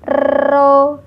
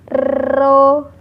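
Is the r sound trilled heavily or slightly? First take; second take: heavily; heavily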